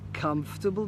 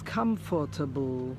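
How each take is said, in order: First: Every sound is said in the natural way. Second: Each letter of the spelling is sounded out. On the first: The speaker calls it right. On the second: The speaker calls it wrong.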